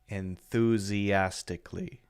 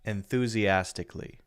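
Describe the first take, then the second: First: The word is said at a slower pace. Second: The word is said at a faster pace.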